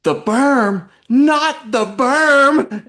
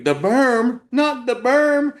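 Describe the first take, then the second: First: High, loud, drawn-out squeal on berm; much higher and louder, stretched mock alarm; imitating little sister. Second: High, loud squeal on berm; much higher, slowly stretched mock alarm; imitating the panic. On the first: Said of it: "she stops and goes". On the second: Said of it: "You're like".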